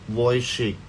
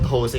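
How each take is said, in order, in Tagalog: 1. Nagsisimula ang pangalan sa tunog na W. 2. Nagsisimula ang pangalan sa tunog na H. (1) "Sabi ng mga Korean though, it's Woshik" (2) "it's not Hosik"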